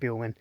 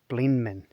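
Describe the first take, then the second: First: The name begins with 'Bil' and has no 'n'. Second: The name begins with 'Blin' and has an 'n'. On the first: The speaker calls it wrong. "it's not Billman" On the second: The speaker calls it right. "it's Blinman"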